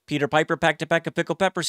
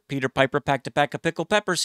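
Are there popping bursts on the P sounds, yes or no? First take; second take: no; yes. First: The P sounds are clean without popping bursts. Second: The P sounds may have popping bursts of air. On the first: A pop filter is probably in front of the microphone. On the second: No pop filter is in front of the microphone.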